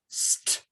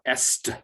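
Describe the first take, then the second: First: It starts directly with the S sound. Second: A vowel sound comes before the S. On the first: The speaker calls it right. "is just st" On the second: The speaker calls it wrong. "It's not est"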